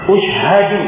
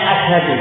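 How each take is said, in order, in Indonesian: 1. Kata ini dimulai dengan vokal 'u'. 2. Kata ini dimulai dengan vokal 'a'. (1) "ini sorofnya keliru" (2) "Mestinya asyhadu"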